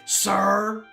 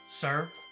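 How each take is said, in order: First: The word is shouted very loudly. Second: The word is said at a normal, quiet volume.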